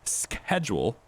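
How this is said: It is said with an American accent.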